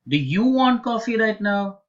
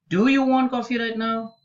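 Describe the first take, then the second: First: The stress falls on the word you. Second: The stress falls on the word do. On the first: It asks whether this person, not someone else, wants coffee. "Let's change the stress onto the second word" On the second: It asks whether the coffee is really wanted or necessary. "So the stress is on do"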